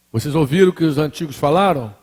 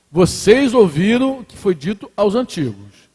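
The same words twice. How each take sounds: First: "Vocês ouviram o que os antigos falaram?" asked as a question; question intonation. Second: "Vocês ouviram o que foi dito aos antigos" declared, not asked; affirming statement. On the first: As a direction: make "falaram" sound like a question. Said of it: "entonação de pergunta". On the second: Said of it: "ele tá afirmando". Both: Shown as a demonstration.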